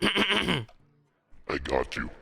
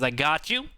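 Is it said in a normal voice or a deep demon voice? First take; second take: demon voice; normal voice. First: It is said in a growling demon voice. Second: It is said in his normal voice.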